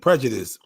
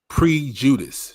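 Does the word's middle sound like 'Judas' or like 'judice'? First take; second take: judice; Judas. First: The middle is said like judice. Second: The middle is said like the name Judas. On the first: This is the word that was intended. The speaker calls it right. "She was saying prejudice" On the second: Someone else mispronounced it. The speaker calls it wrong. "she said pre-Judas"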